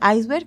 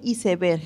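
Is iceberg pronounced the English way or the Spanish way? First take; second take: English way; Spanish way. First: The word is pronounced like English 'ice-berg'. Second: The word is pronounced with Spanish spelling sounds. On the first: This is not how it is said in Spain. The speaker calls it wrong. "en España no se dice iceberg" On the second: This is how it is said in Spain. The speaker calls it right. "Se dice iceberg"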